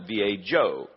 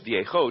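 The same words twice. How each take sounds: First: The middle consonant is a J sound. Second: The middle consonant is an H sound. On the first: The speaker calls it wrong. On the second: The speaker calls it right.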